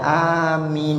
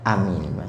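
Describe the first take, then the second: First: The vowels are drawn out long. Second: The vowels are said short. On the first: It asks that the prayer be granted. "dibaca panjang" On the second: It names a person who believes. "itu hanya artinya orang yang beriman"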